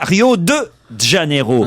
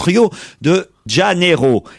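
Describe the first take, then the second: First: The name is pronounced in a distorted way. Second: The name is pronounced in full, Portuguese style. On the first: The speaker calls it wrong. "mais en aucun cas Rio de Janeiro" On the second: The speaker calls it right. "en portugais on prononce Rio de Janeiro"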